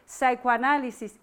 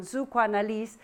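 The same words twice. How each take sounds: First: Said in the usual way. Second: Psychoanalyse said the German way, stress on Psycho; careful, slightly softer German Psychoanalyse; German pronunciation. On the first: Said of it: "when we say psychoanalysis in German". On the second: Shown as a demonstration. Lecturer who speaks no German tries the word, careful German pronunciation. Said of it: "excuse my pronunciation".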